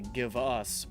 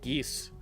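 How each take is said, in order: First: The two words are said separately. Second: The two words are merged into one syllable. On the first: "sometimes they say "give us,"" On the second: "push it together, so they say "geese.""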